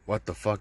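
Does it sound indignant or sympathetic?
indignant. It sounds indignant, annoyed that nobody is working.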